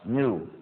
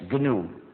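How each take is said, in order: First: The word starts with an n sound, g silent. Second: The word starts with a g sound before n. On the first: This is the dictionary pronunciation. The speaker calls it wrong. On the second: This is the pronunciation for the name of the system. The speaker calls it right.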